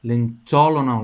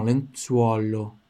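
First: Lenzuolo said quick, U and O swallowed; the sloppy version without rounding; wrong lenzuolo. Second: Lenzuolo slow, U and O both clear; right lenzuolo. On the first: (lenzuolo rápido, sem o U e o O) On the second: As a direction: round the lips for U then O. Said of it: "Tem que sair o U e o O". (lenzuolo devagar, com U e O claros) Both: Shown as a demonstration.

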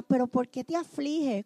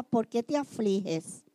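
First: Pregunta en voz baja de esposo; Elcana suave. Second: Pregunta lenta y más baja; Elcana tierno. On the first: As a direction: consolar con ternura contenida. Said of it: "Elcana le preguntaba a Ana". (Elcana a Ana llorando, pregunta suave) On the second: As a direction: preguntar despacio, casi consolando. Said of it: "le decía". (Elcana a Ana llorando, pregunta lenta y baja) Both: Retold or imitated.

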